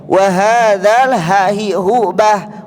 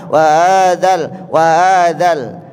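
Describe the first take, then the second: First: "Wahadzal" dengan h tebal dari dada; huruf ha tebal. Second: "Wahadzal" tanpa h, terdengar seperti "wa-adzal"; bacaan salah. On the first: Shown as a demonstration. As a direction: contohkan "ha hi hu bah" pelan dan berhembus. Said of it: "Huruf ha tebal ya bunda". (tekankan h pada "Wahadzal") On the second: Retold or imitated. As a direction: tirukan salah baca, ha menjadi a. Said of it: "miripnya bacanya huruf a". ("Wahadzal" lambat dengan h hilang)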